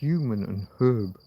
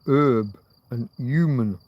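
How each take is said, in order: First: The initial h sounds are clearly pronounced. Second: The initial h sounds are left silent. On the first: "rather than human and herb" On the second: "Americans go with herb and human"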